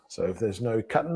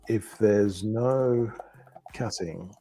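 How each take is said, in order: First: It is quick, with the final g sound dropped. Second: The final g sound of cutting is pronounced.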